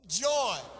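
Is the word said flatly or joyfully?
joyfully. The word is said in a joyful way.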